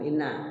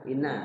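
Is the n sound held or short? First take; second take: short; short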